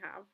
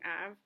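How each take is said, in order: First: The word starts with an audible h sound. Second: The word starts with a vowel, no h. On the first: The speaker calls it right. "So he should be saying have" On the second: The speaker calls it wrong. "He's avoiding the glottal H when he's saying have in his head. He's saying av"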